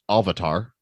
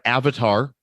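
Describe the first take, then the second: First: The first vowel is a long A sound. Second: The first vowel is a short A sound.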